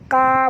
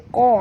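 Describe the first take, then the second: First: The consonant is a light k sound. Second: The consonant is a heavy, deep q sound. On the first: The speaker calls it wrong. "qa jangan baca ka" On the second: The speaker calls it right. "baca qa ya, tebal huruf isti'la"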